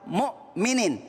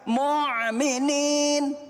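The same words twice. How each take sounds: First: A glottal stop follows the first syllable. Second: No glottal stop follows the first syllable. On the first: The speaker calls it right. "saya mau menyampaikan yaitu lafal mu'minin" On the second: The speaker calls it wrong. "Jangan sampai mu'minin"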